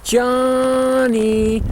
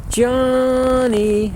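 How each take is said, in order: First: High, drawn-out call falling off; lost call. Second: High held call dropping at the end; falls off at end. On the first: Demonstrating the lost calf call, high then falling. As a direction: hold it then let it fall at the end. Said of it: "starts out medium". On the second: Demonstrating the lost call again, high then fading. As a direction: let the end fall away. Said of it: "and falls off at the end". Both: Shown as a demonstration.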